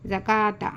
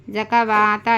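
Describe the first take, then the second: First: ज़काता with no w sound; ज़काता as za-kaa-ta, waw silent; correct silent waw. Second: ज़कावाता with an extra वा; ज़कावाता as za-ka-waa-ta; wrongly sounded waw. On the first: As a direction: say ज़काता with a long का and no वा. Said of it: "वाऊ silent है". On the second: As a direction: sound the silent waw in ज़कावाता, the mistake to avoid. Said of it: "ऐसा नहीं पढ़ना". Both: Shown as a demonstration.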